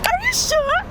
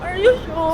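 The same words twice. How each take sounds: First: It is said in a surprised tone. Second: It is said in a sad tone.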